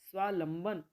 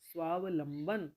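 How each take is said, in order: First: The word has no va syllable after sva. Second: The word has a va syllable after sva. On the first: The speaker calls it wrong. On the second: The speaker calls it right.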